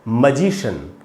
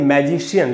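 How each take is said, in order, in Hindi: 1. शब्द एक अक्षर वाली 'shun' ध्वनि से खत्म होता है। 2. शब्द दो अक्षर वाली 'shee-un' ध्वनि से खत्म होता है। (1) "इसका जो करेक्ट प्रोनाउंसिएशन है वो है मजिशियन" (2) "हम इसको बोलते हैं मैजिशियन"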